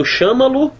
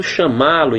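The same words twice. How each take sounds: First: Chama-lo stressed on CHA; stress on first syllable. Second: Chamá-lo stressed firmly on MÁ; stress on middle syllable. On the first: Teacher showing the wrong reading, chama-lo stressed on CHA. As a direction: say chama-lo as SHA-ma-lu, tail unstressed. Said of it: "Você não tá lendo chama-lo". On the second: Teacher showing the right reading, chamá-lo stressed on MÁ. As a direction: say chamá-lo as sha-MA-lu. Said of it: "Onde é que tá a sílaba tônica?". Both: Shown as a demonstration.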